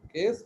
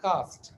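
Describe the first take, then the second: First: The vowel sounds like 'ay' in 'day'. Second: The vowel sounds like 'ah' in 'father'. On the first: The speaker calls it wrong. "കേസ്റ്റ് അല്ല" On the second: The speaker calls it right.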